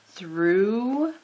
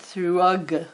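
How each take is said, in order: First: The word ends in an oo sound, no G. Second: The word is said with a hard G sound. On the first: This is how it is said today. "Through, oo" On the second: This is how it might have been said long ago. "they might have said more of these letters. It might have been thrug"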